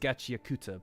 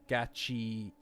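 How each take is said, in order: First: The u after the k is clearly voiced. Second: The u after the k is dropped.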